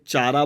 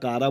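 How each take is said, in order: First: The word begins with a 'ch' sound. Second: The word begins with a 'k' sound. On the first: "चारा बोल सकते हो" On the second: "या कारा बोल सकते हो"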